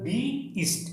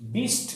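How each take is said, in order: First: The word is said as two syllables. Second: The word is said as one syllable. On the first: The speaker calls it right. "উচ্চারণ হবে বি ইস্ট। এখানে দুইটা syllable" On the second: The speaker calls it wrong. "এর উচ্চারণ বিস্ট না"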